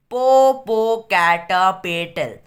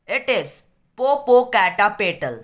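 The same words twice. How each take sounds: First: Popocatépetl broken into slow, loud syllables; Popocatépetl stretched out piece by piece, loudly. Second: Said in the usual way. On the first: A narrator's reading. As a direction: stop after each syllable of Popocatépetl. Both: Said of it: "stopping at each syllable".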